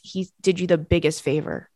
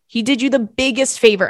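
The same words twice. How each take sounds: First: Said in the usual way. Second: Lifted, with stress on "biggest"; emphatic repeat. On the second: Real, not acted. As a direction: drive home "biggest favor", pitched up. Emphatic repeat of the same words.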